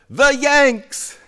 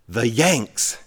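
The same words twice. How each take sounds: First: Very high, loud imitation of mom's punchline; mock triumphant punchline. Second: Punchline in an understated mom voice; mom's punchline. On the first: Mom reveals the answer to the family, mock triumphant. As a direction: sing out the answer way up high, hammed-up. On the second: Retold or imitated. Mom tells her son the joke's answer, lightly voiced punchline. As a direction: deliver the punchline at an ordinary pitch, lightly imitated.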